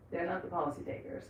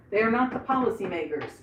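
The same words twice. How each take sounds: First: Soft trailing aside; quiet resigned repeat; muttered repeat. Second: Said in the usual way. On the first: Acted. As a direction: drop to a near-mutter for the echo. Repeats it much softer.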